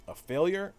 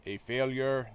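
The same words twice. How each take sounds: First: Higher, rising, taken-aback question; affronted question. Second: Put-on half-hearted stab at a German accent; crappy German accent. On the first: Acted. Streamer voicing villain's reply to Captain America, affronted question. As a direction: echo it back as an indignant question. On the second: Streamer trying Red Skull's line for viewers, crappy German accent. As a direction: attempt a hammy German villain accent. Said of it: "in my crappy German accent".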